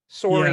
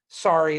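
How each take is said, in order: First: It is said with a Canadian accent. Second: It is said with an American accent. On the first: "is Canadian" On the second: "is American"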